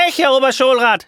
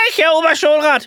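First: Much higher, loud insistent shout; shouting claim. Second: Even higher, loud shout over the other; outshouting. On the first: The real teacher shouts to the school inspector, loud and high. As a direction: shout to claim you are the real one. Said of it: "schreit der Echte". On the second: The impostor outshouts the real teacher before the inspector. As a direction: shout him down. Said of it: "überschreit ihn der Unechte". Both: Acted.

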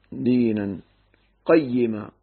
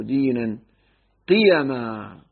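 First: دينا قيما as "dinan qay-yi-ma", pitched low; doubled-ya reading. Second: دينا قيما as "dinan qi-ya-ma"; light-ya reading. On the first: Teacher contrasting two Quran readings, doubled-ya reading. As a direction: give قيما an open qaf and doubled "yi". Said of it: "تشديد الياء المكسورة". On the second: Teacher giving the alternative reading, light-ya reading. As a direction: give قيما an "i" on the qaf and a single "ya". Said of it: "قراءتين مشهورتين". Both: Shown as a demonstration.

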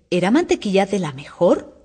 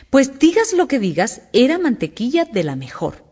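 First: Gentle sweetness. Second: Higher-pitched, emphatic insistence; insistent. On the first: The hare defends the butter to the hatter, sweetly. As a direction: answer sweetly, with a questioning lift. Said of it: "respondió con dulzura la liebre". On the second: The hare insists again that it was good butter, stubbornly. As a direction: stand your ground about the butter. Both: A narrator's reading.

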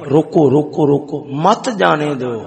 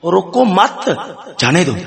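First: Repeated "روکو", then "مت جانے دو" together; stop-order on روکو, then مت جانے دو as one phrase; pause after روکو. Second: Attach مت to رکو and pause before جانے دو; pause after مت. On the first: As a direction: break before مت, joining it to جانے دو. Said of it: "ایک نے کنج پڑھیا". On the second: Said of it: "دوسرا آیا". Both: Shown as a demonstration.

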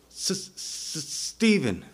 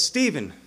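First: Halting, stuck S before the name; mock stammer, faint then released; imitated stutter. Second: Said in the usual way. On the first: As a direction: stutter on the first sound, then push out the name. Acting man who needs speech healed.

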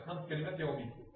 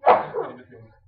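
First: Said in the usual way. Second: Much higher and louder, stressing كلمات; loud emphatic repeat. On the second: Shown as a demonstration. Teacher repeating the rule loudly for trainees. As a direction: call it out to the class. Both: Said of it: "ينزل في هذه القاعدة خمس كلمات".

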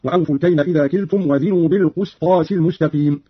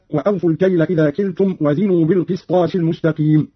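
First: "بالقسطاس" said "bil-qustas"; damma on qaf. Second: Said in the usual way. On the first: Shown as a demonstration. Teacher demonstrates Qalun's reading, "بالقسطاس" with qu. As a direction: put a short u after the qaf in "بالقسطاس". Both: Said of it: "قرأ قالون بضم القاف".

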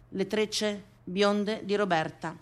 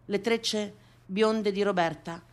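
Both takes have the same delivery.

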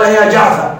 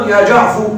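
First: يا جعفر ending on fatha, جعفَ; original vowel kept. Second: يا جعفر ending on u, جعفُ; with damma. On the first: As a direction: keep the a before the dropped letter in يا جعفر. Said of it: "كأنه ينتظر عودة المحذوف". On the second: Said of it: "فيكون مضموما". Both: Shown as a demonstration.

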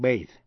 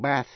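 First: "bathe" ending in a buzzing th; voiced TH. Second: "bath" ending in a breath-only th; voiceless TH. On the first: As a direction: end "bathe" on th with voice. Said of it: "là âm rung, voiced". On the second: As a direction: end "bath" on th without voice. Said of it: "là âm không rung, voiceless". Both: Shown as a demonstration.

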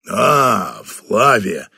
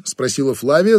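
First: Put-on deep, calm older boss; low, unhurried greeting from the boss; low general voice. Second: Said in the usual way. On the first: Batanda greets Flavia.

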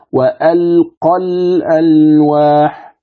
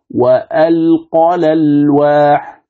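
First: Slow level tajweed, "الألواح" with its hamza pronounced; Hafs reading. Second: Slow level tajweed, lam of "الألواح" voweled in place of hamza; Warsh reading. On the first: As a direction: chant "وألقى الألواح" slowly, keeping the hamza in al-alwah. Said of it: "كيف يقرأ مثلًا حفص هنا". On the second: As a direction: chant "وألقى الألواح" slowly, hamza dropped and its vowel moved to the lam. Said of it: "لكن بنقل حركة الهمزة الآن". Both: Shown as a demonstration.

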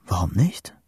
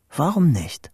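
First: Hushed whisper with a rising end; whispered thought. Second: Higher voiced repeat with a falling end; voiced, resolved thought. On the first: Boy thinking to himself under storm clouds, whispered. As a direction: whisper it as a dawning question. Private thought, first take. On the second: Boy daring himself under storm clouds, voiced and falling. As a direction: say it higher, deciding on it. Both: A narrator's reading.

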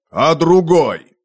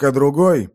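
First: Slow, louder call from the yard; called from below. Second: Said in the usual way. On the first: Acted. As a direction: shout up from the courtyard. Раздалось снизу, со двора. (издалека, снизу)

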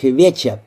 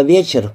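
First: "веча" with an open vowel ending, no R; dropped final R. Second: Said in the usual way. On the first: A narrator's reading. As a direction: say "веча", letting the last R vanish into "a". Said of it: "прозвучало в её устах как «веча»". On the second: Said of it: "прозвучало в её устах как".

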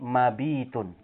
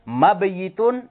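First: Mabitun with a long bii; contracted form. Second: Mabayitun with yi as its own syllable; uncontracted form. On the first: Teacher showing the changed form, mabitun with long ii. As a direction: drop the y and stretch bii in mabitun. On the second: Teacher showing the form before the change, Mabayitun with yi. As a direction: sound the y clearly in Mabayitun. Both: Shown as a demonstration. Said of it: "menjadi mabitun".

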